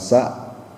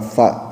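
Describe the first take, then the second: First: The consonant is a plain hissing s sound. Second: The consonant is a th sound with tongue between teeth. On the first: The speaker calls it wrong. "bukan sa" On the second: The speaker calls it right. "ujung lidahnya di sedikit digigit"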